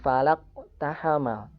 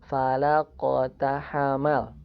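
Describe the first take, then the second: First: The q is cut off without bounce. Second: The q is released with a light bounce. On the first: The speaker calls it wrong. "bukan ... Tidak diputuskan" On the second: The speaker calls it right. "dipantulkan secara ringan"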